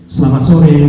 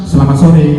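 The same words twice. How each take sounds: Both takes have the same delivery.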